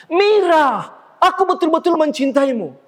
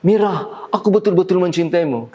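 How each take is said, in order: First: High-pitched, theatrical declaration of love to the back row; projected stage declaration. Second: Said in the usual way. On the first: Shown as a demonstration. Actor declaring love to Mira on stage for the audience, projected theatrically. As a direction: declaim it far higher, for an audience. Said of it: "Di atas panggung wajar kita mengatakan". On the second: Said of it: "di atas panggung tidak wajar kita mengatakan".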